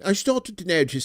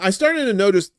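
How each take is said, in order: First: It is said in a British accent. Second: It is said in the speaker's usual accent.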